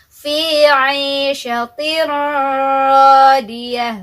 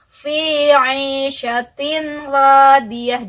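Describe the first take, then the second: First: The merged sound is held with a nasal hum. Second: The n is pronounced clearly before the r. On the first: "jangan ditahan, harus dimasukkan saja" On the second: "dibaca izhar juga salah ya"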